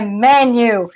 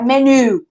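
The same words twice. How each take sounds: First: The stress is on the first syllable. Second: The stress is on the last syllable. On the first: The speaker calls it right. "A parte mais forte da palavra tá no início" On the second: The speaker calls it wrong. "Não é menu"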